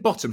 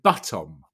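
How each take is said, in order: First: The first vowel sounds like the vowel in 'bot'. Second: The first vowel sounds like the vowel in 'but'. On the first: "instead of saying bottom" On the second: "she said buttom, like a mixture of butt and bottom"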